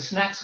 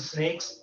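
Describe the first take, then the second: First: The vowel is like the one in cat. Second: The vowel is like the one in cake.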